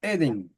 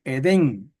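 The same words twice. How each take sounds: First: Edén stressed on the first E, É-den; Hebrew Edén. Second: Edén stressed on the final syllable, e-DÉN; Spanish Edén. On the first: Teacher showing students Hebrew Edén, stress on first E. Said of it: "el acento va en la primera E". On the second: Teacher giving the usual Spanish Edén, stressed last. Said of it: "en español se dice". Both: Shown as a demonstration.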